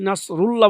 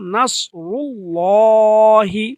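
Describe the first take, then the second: First: The word ends on the h sound, no vowel. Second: The word ends with a short i vowel. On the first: The speaker calls it wrong. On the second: The speaker calls it right.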